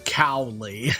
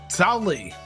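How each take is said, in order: First: The name begins with a 'cow' sound. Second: The name begins with a 'sao' sound.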